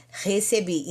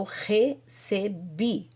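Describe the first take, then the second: First: Said in the usual way. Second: "recebi" slowly split as re-ce-bi; syllable by syllable. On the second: Shown as a demonstration. Teacher reminding students what lekabel means, syllable by syllable. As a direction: space out each syllable of "recebi". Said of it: "O que que é lekabel?".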